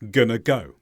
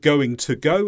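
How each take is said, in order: First: Going to merges into gonna before go. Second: All words are pronounced fully with every consonant. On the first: "it's gonna go" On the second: "Instead of"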